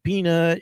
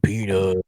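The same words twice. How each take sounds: First: It is said in a normal calling voice. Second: It is said in a deep, gurgly voice.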